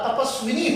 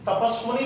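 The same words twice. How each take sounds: First: तपस्विनी with -svi-nee at the end; correct pronunciation. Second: तपस्वनी with -sva-nee at the end; mispronunciation demo. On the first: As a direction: say तपस्विनी with a short 'i' after the v. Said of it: "तो ये शुद्ध है". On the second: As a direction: say तपस्वनी with an 'a' after the v. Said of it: "तपस्वनी नहीं होता". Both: Shown as a demonstration.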